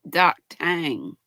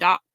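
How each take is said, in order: First: The second syllable sounds like 'tang'. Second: The second syllable sounds like 'tor'. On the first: The speaker calls it right. "I'm pretty sure it's pronounced Doc Tang" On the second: The speaker calls it wrong. "I've been saying it wrong this whole time"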